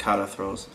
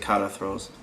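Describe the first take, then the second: First: The middle consonant is a T sound. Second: The same.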